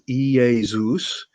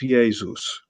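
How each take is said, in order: First: The word is said slowly, vowel by vowel. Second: The word is said quickly, vowels run together. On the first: "if you say it slowly" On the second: "and then speed it up"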